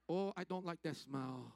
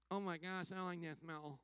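First: Low, slow, badly faked Indian accent. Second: Disgusted visitors. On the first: Indian people smelling visitors, badly faked Indian accent. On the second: Retold or imitated. Travelers reacting to smells in India, mock disgust. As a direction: lower mock complaint in a put-on voice. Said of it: "many of us have said".

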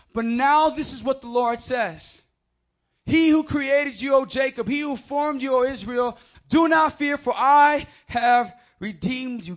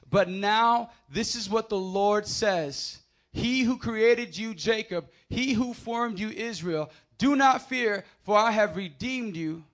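First: Loud, high, slow proclaimed scripture; preaching at full force. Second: Slow measured reading; scripture reading. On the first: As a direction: shout the verse out like a proclamation. Rereads verse at full force. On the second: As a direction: read the verse steadily and calmly. First reading of verse. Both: Acted.

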